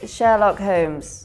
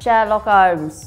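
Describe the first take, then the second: First: The H at the start of Holmes is pronounced. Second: The H at the start of Holmes is dropped.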